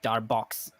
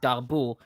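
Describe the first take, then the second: First: The name is said with an English pronunciation. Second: The name is said with a French pronunciation. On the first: "in English it sounds like Darbox" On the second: "people that name Darboux"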